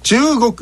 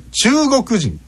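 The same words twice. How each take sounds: First: "中国" starting high on 中, falling after it; accent contrast. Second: "中国人" rising after 中, high through 国; teacher's overdone high middle in "中国人"; accent contrast. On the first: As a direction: punch 中 high in "中国", then drop. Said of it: "そういうふうにアクセントが変わる". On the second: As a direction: lift the pitch after 中 in "中国人". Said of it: "中の後が上がるんです". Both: Shown as a demonstration.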